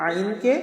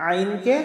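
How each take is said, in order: Both takes have the same delivery.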